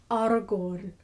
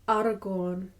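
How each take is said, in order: Both takes have the same delivery.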